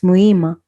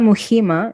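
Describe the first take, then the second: First: No h sound is heard in the middle. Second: An h sound is heard in the middle. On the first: The speaker calls it right. "you don't pronounce the H" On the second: The speaker calls it wrong. "Not not Muhima"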